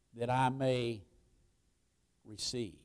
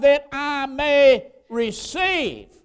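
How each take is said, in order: First: Soft, low, prayerful answer; hushed reply. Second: Loud, high, drawn-out preacher's cry; emphatic declaration. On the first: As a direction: offer it quietly, like a private prayer. Models congregation's reply softly. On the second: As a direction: proclaim it slowly at full voice. Preacher voices blind man's reply. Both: Acted.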